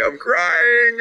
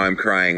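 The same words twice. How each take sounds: First: Very high, hammed-up tearful whine; mock crying. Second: Said in the usual way. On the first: Host joking back to a tearful viewer, mock crying. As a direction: wail it as if badly faking tears.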